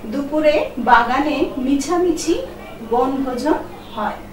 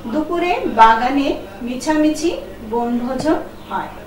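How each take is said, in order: The two takes are said the same way.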